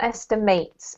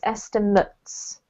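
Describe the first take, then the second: First: The word is said like the verb form. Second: The word is said like the noun form. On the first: The speaker calls it wrong. "not estimates" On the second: The speaker calls it right. "the noun is the estimate"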